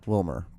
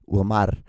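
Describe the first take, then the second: First: The name is said with a plain English R. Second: The name is said with a rolled R. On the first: The speaker calls it wrong. "that's so fucking boring" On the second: The speaker calls it right. "add a little bit of flair to it"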